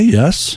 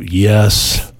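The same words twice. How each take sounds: First: The yes is said in a sincere tone. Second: The yes is said in an insincere tone. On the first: The listener genuinely agrees or understands. The speaker calls it right. "It's got to be sincere" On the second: The listener is not really agreeing. The speaker calls it wrong. "You can't go yes"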